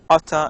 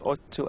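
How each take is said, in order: First: The words blend into one with a soft t. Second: Both words are said fully with a clear t.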